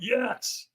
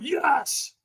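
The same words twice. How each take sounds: First: Soft, higher half-hearted yes; timid yes. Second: Higher, more committed yes; stronger yes. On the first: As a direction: hold back. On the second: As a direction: try to mean it. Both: Retold or imitated. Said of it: "And I went".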